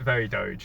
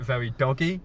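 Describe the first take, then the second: First: The name is said as one syllable, 'dohj'. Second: The name is said as two syllables, 'doggy'. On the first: This is how most people say it. "a lot of people pronounce it very Doge" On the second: This is how the speaker privately says it. "In my head, I pronounce it very doggy"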